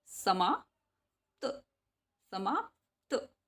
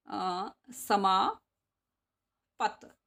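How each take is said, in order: First: समाप्त slow, half प clipped into त; correct pronunciation. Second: समापत said slowly with a full vowel before त; wrong pronunciation. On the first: Teacher showing pupils the right way, slow. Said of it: "आधे पै का sound आ रहा है". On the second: Teacher showing pupils the wrong way, slow. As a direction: drag out समापत as the wrong form. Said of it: "this is wrong". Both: Shown as a demonstration.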